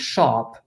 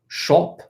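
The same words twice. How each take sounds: First: The vowel is said without a British accent. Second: The vowel is said with a British accent. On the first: "instead of saying shop" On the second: "shop pronounced as if you're from England"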